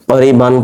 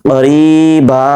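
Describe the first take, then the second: First: The word ends with an n sound. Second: The word ends on a long a vowel. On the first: The reading continues without stopping. "মিলিয়ে পড়লে ক্বারিবান পড়ছি" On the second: The reading stops at this word. "থেমে গেলে ক্বারিবা"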